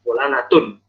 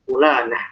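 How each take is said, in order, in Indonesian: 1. Kata itu berakhir dengan bunyi n. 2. Kata itu berakhir dengan bunyi h lembut. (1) "dia memang bunyinya nun" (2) "Coba kita berhentiin bacaan"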